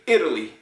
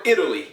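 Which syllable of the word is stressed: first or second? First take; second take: first; first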